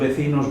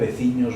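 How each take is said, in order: First: The ending has a plain n sound. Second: The ending has a palatal ñ sound. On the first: This is the form used further east. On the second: This is the form used closest to Galicia.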